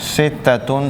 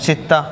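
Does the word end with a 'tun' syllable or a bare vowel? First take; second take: tun syllable; bare vowel. First: The word ends with a full 'tun' syllable. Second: The word ends cut short on a vowel. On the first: This is the full classical form. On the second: This is how modern speakers say it with a pause.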